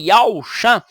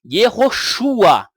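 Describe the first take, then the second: First: The name begins with a gliding diphthong. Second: The name begins with separate consonant-vowel syllables. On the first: The speaker calls it wrong. "ele está colocando um ditongo onde não existe" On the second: The speaker calls it right. "no início das palavras, nunca vai existir um ditongo"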